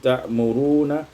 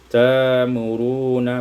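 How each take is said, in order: First: A glottal catch follows the first syllable. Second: A long vowel replaces the glottal catch.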